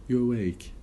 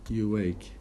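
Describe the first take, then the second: No difference in how they are said.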